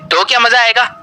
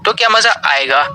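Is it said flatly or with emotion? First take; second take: with emotion; flatly. First: It is said with clear emotion. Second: It is said without much emotion.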